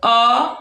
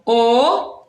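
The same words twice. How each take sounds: First: The vowel is said with an open quality. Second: The vowel is said with a closed quality. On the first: "som aberto" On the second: "som fechado"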